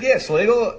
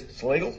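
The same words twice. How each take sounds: First: Higher, louder reply with amusement; retold assured answer. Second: Hesitant question, rising at the end; retold wary question. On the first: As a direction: answer him brightly, half laughing. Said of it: "I said". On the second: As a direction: imitate a cautious executive asking. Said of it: "He says".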